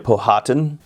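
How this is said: The name is said in an English pronunciation. "I pronounce it the English way"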